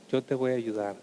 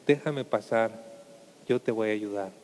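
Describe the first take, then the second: First: Gentle reassurance. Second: Low, soft and tender, as the Lord; deep gentle Lord. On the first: The Lord reassures. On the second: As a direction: speak low and soothing, offering help. The Lord asks to enter. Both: Acted.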